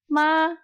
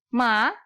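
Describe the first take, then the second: First: The pitch stays high and level. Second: The pitch rises from middle to high. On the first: "Nada satu" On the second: "nada kedua"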